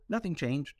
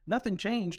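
First: Said in the usual way. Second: "Nothing" raised and stressed, falling at the end; emphatic. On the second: Shown as a demonstration. Telling listeners the point with stress on "Nothing". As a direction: lean hard on "Nothing" to insist the point.

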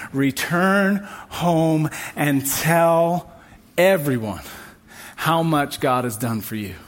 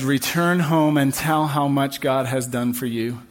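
First: "Return home and tell" drawn out very slowly, each word weighed; slow, weighty repeat. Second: Said in the usual way. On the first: Shown as a demonstration. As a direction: let the verse sink in, word by word. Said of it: "verse said again slowly". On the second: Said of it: "Jesus says".

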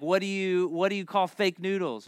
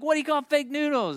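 First: Lightly voiced joke question; joke setup. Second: High-pitched, eager repeat of the riddle; insistent joke setup. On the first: Kid trying a joke on mother in the store, joke-setup delivery. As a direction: pitch the riddle as a child comedian. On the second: Retold or imitated. Kid repeating the joke to puzzled mother, insistent and high. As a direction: push the joke again, much higher.

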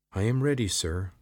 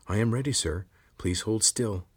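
First: Higher, louder braced lizard; tense lizard voice. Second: Calm, lightly raised lizard voice; steady helper creature. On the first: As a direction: steel yourself for the blow. Lizard ready to strike. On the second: Lizard Zarek speaks. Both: A narrator's reading.

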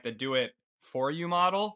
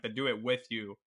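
First: "for" punched, voice rising into "you model"; stress on for. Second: "with" leaned on, then "you" falls away; stress on with. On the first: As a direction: lean on "for" and lift the end. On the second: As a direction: set "with you" apart as the new option. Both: Real, not acted. Contrasts two named business models.

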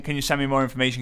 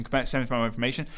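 First: Said in the usual way. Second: The request repeated softer and faster, trailing off; fading mock request. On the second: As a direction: let it fade into a quick mumble. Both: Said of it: "Flooded with people saying".

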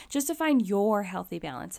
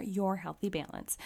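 First: Said in the usual way. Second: Your leaned on, rest of the phrase lighter; stress on your. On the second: Shown as a demonstration. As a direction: give the word your the weight. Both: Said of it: "I wanna emphasize the word your".

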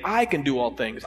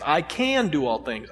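First: "I" stressed at the start, rest lighter. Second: "can" stressed, "I" kept light. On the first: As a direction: lean on "I" first. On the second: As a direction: hit the word "can". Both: Shown as a demonstration. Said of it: "emphasizing a different word each time".

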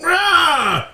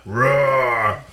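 First: High mock roar; dinosaur voice. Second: Dinosaur voice. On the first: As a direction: roar like a playful monster. Couple roleplays zombie roar. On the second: Pretend. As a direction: lower mock roar. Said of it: "your voice deeper than mine".

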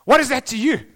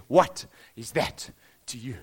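First: Louder sharp challenge on "What is that to you?"; firm rebuke. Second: Low and slow, a deep calm question; deeper tone. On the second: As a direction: drop the voice low and ask "What is that to you?" slowly. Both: Shown as a demonstration. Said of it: "I wonder what tone of voice".

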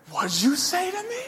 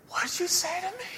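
First: Much higher, squeaky fake-tough challenge; a scrawny kid trying to sound menacing; mock tough guy. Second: Much higher and softer squeaky challenge; same puny menace, pulled back to a hiss-less hush; mock tough guy, softer. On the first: Squaring up to mocking brother. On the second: Repeats challenge, gloves off.

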